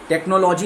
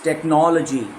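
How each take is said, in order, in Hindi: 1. Stress दूसरे syllable पर नहीं है। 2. स्ट्रेस दूसरे सिलेबल पर है। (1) "is not the right pronunciation" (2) "it's"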